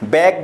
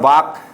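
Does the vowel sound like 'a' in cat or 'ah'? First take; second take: cat vowel; ah. First: The vowel sounds like 'a' as in cat. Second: The vowel sounds like 'ah' as in father. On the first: The speaker calls it right. "बैक बोलेंगे" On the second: The speaker calls it wrong. "यहाँ पर वाक नहीं बोलेंगे"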